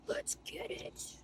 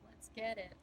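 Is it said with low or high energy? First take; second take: high; low. First: It is said with more enthusiasm. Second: It is said with little enthusiasm.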